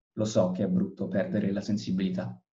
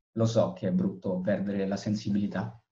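No difference in how they are said.

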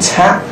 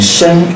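First: The syllable is pronounced can. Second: The syllable is pronounced shen. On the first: The speaker calls it wrong. "这个地方不能读参" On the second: The speaker calls it right. "名生，人生的生"

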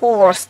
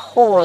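First: The vowel is followed by a pronounced r. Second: The vowel is long and the r is silent. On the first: "Есть американский вариант английского языка. Там вы прочли так" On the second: "Перед «ры» все длинно"

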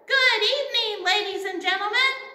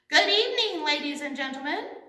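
First: It is said at the loudest volume. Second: It is said a little louder.

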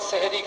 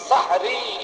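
First: The first vowel is a front 'e'. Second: The first vowel is an open 'a'. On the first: It comes to mean magic. The speaker calls it wrong. "জের লাগাইলে জাদু হয়ে যাবে" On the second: It names the last meal before dawn. The speaker calls it right. "সিনের উপরে জবর লাগাও"

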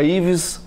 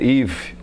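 First: The name ends with an audible S sound. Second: The name ends without any S sound. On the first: This is how most people say it. The speaker calls it wrong. "Todo mundo fala Yves com S" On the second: This is the French way to say it. The speaker calls it right. "mas o correto em francês"

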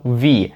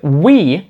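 First: It begins with a V sound. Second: It begins with a rounded W sound. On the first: The speaker calls it wrong. "я казав we. І звучить так собі" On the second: The speaker calls it right. "щоб сказати we"

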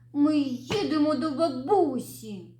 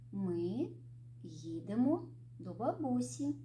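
First: It is said in a hurt, sulky tone. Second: It is said in a calm, even tone. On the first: The speaker feels hurt about the trip. "образившись" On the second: The speaker feels neutral about the trip. "Спокійно"

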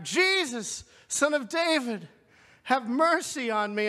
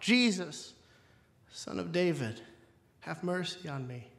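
First: It is cried out loudest of all. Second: It is cried out at normal loudness.

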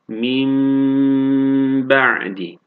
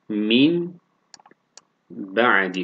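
First: The n turns into a held m sound. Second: The word ends in a plain n sound. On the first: "Nun harfini mim harfine çeviriyoruz" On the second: "sakin nun"

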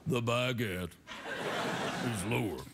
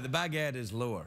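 First: It is said in a deeper voice. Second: It is said in his normal voice.

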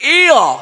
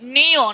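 First: The letter name begins without an n sound. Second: The letter name begins with an n sound. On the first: The speaker calls it right. "এটা হবে ইয়" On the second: The speaker calls it wrong. "ঝড় পরে আমরা কি বলি? নিয়। নিয় বলে কোনো ব্যঞ্জন বর্ণ"

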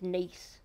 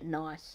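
First: It is said like the French city, rhyming with 'geese'. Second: It is said like the English word 'nice'. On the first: "like Nice in France" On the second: "Maybe you pronounce it Nice"

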